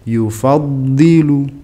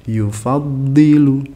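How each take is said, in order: Both takes have the same delivery.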